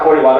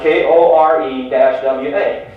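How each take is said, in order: First: Said in the usual way. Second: "K O R E dash W A" spelled out slowly, one letter at a time; slow letter-by-letter spelling of "K O R E dash W A". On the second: Shown as a demonstration.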